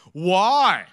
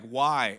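First: Loud, high mock challenge; cheeky kid. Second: Said in the usual way. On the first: Middle schooler talking back to pastor, loud cheeky challenge. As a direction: throw it back like a defiant kid. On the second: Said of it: "That didn't happen".

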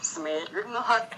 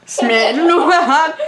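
First: Smednuhat sounded out slowly as reversed audio; backwards speech. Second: Smednuhat drawn out slowly, rising at the end; imitating backwards speech. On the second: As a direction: copy Smednuhat slowly with a questioning rise. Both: Shown as a demonstration. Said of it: "say it backwards".

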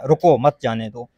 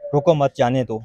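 First: रुको set apart as a command, मत joined to जाने दो; pause after रुको. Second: रुको मत run together, then जाने दो; pause after मत. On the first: Lawyer showing how phrasing changes meaning, pause after रुको. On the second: Lawyer showing the same words read the other way, रुको मत grouped. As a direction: join मत to रुको, break before जाने दो. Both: Shown as a demonstration. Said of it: "आप अपना मतलब जो भी ले लें".

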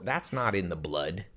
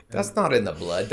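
First: Said in the usual way. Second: "not" emphasized, pitch rising on it; stress on NOT. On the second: Shown as a demonstration. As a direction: lean hard on "not", then let the rest fall.

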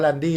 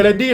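First: "แรนดี้" said with the open vowel แอ, like "Ran-dee"; "แรนดี้" read correctly with an a sound; corrected name. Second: "เรนดี้" said with the vowel เอ, like "Ren-dee"; "เรนดี้" read wrongly with an e sound; mispronounced name. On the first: Gamer correcting himself on the friend's name "แรนดี้". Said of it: "มันอ่านว่าแรนดี้นะ ไม่ใช่เรนดี้". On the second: Gamer first misreading the friend's name as "เรนดี้". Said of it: "ตกลงมันอ่านว่าแรนดี้นะ ไม่ใช่เรนดี้". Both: Shown as a demonstration.

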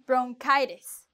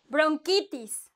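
First: Bronchitis said the English way, bron-KAI-tis; English pronunciation. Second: Bronchitis said the Spanish way, bron-KEE-tis, a bit higher; Spanish pronunciation. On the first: Teacher contrasting English and Spanish Bronchitis. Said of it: "when I was a child". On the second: Teacher contrasting Spanish with English Bronchitis. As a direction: give Bronchitis a Spanish ee vowel. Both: Shown as a demonstration.

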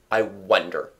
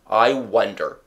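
First: Low, pondering; thoughtfully. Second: Thoughtfully repeated. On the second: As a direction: repeat "I wonder" to himself. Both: A narrator's reading. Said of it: "said thoughtfully".

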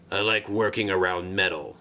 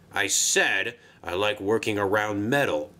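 First: Low, gruff grunt of a line. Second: Said in the usual way. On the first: Acted. Sixteen grunting his answer to the controller, gruff and low. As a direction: grunt it out sullenly. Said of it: "he grunted". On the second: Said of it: "beg pardon".

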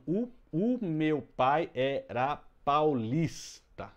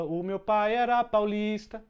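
First: Very slow, syllable by syllable; "o meu pai era paulista" split into even beats; scanning syllables. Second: Sung, higher and louder, slow, like a tune; sung, lift "O meu pai era paulista" into a melody; half-sung line. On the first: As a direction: scan the verse slowly, counting each beat. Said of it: "a última tônica aqui é o lis". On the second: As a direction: sing the verse lightly to show the notes. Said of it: "em música dá pra você dizer". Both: Shown as a demonstration.

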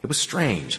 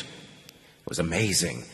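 First: Said in the usual way. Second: Softer and slower, full of wonder; quiet amazed murmur; hushed awe. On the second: A narrator's reading. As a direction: let the wonder hush your voice. Awed narration of escape.

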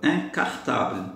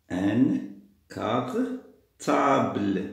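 First: Said in the usual way. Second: "Un cartable" very slow, with gaps between the parts; syllable by syllable. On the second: Shown as a demonstration. Teacher sounding out "cartable" to find the missing syllable, drawn out. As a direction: stretch "cartable" out as "car... table". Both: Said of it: "أنا خاصني un syllabe".

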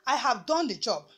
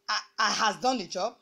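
First: Said in the usual way. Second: Wrong example. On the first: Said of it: "For example". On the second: Shown as a demonstration. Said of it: "That would be incorrect".

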